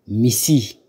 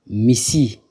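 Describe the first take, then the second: No difference in how they are said.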